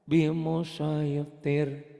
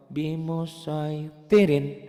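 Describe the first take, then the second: First: Slow, higher chanted "bimusoitir", halted on R; stopped ending. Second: Slow, higher chanted "bimusoitirin", ending short on "rin"; "bimusoitirin" with its final N sounded. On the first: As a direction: drop the final "in" and stop "bimusoitir" on a bare R. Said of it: "kalau dihentikan". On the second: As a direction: intone "bimusoitirin" without stretching the last syllable. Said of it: "rinnya kan kosar". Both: Shown as a demonstration.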